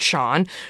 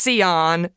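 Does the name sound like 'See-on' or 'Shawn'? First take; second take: Shawn; See-on. First: The name is said as one syllable, 'shawn'. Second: The name is said as two syllables, 'see-on'. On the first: The speaker calls it right. "but you pronounce it Sean" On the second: The speaker calls it wrong. "it looks like it's Sion"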